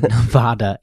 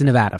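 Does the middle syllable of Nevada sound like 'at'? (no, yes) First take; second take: no; yes. First: The middle vowel does not sound like 'at'. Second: The middle vowel sounds like 'at' in attitude. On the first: The speaker calls it wrong. "Don't you dare say Nevada" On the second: The speaker calls it right. "It's Nevada, for sure. ... Nevatitude"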